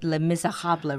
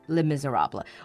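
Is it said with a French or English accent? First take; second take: French; English. First: It is said with a French accent. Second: It is said with an English accent.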